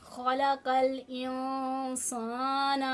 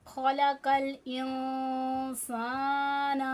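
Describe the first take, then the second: No difference in how they are said.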